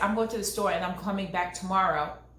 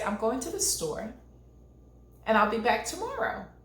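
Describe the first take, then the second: First: It is said fast, without pauses. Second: It is said slowly, with pauses.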